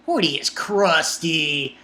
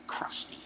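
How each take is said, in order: First: Crusty said slowly and deliberately; slow, emphatic Hody is crusty; slow emphatic verdict. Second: Much softer whispered crusty; whispered aside. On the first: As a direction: lean into crusty, slow and firm. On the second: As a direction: breathe crusty under your breath. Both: Real, not acted.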